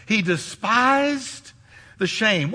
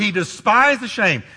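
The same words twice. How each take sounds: First: Slow and deliberate. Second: DESPISED leaned on hard; stress on despised. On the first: Preacher slowing down so the church grasps it. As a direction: stretch out despised, let it sink in. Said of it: "What does that mean?". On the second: Preacher stressing despised to his congregation. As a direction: hit the word despised with weight. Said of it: "Now listen carefully". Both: Shown as a demonstration.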